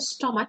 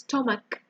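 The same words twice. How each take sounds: First: The middle consonant is a ch sound. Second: The middle consonant is a k sound. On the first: The speaker calls it wrong. "it's not a chew, it's not a stomach" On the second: The speaker calls it right. "it's stomach"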